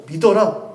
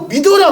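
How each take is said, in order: First: Said in the usual way. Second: Higher and louder, urgent; emphatic command. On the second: Shown as a demonstration. Preacher voicing God urging doubters, forceful raised command. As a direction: press it home: 믿어라 raised and forceful. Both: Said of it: "말씀하시는 거라고요".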